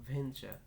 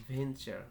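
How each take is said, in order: Both takes have the same delivery.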